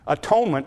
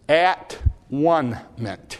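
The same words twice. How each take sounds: First: The word is said smoothly as one unit. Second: The word is broken into three separate parts.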